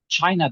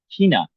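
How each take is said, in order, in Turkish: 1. Kelime H dışında bir sesle başlıyor. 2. Kelime H sesiyle başlıyor. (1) "China değil" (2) "CH ile başlıyor ise H'ya dönüşür"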